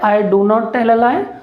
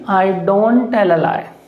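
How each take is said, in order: First: Do and not are said as two full words. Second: Do and not merge into one short syllable. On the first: "पहले बोलते थे" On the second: "और अब क्या बोलेंगे"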